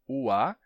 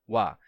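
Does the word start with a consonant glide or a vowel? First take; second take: vowel; consonant glide. First: It is two vowels in separate syllables. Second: It starts with a consonant glide before the vowel. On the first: "vogal, vogal" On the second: "Não é a mesma coisa ua ... que wa"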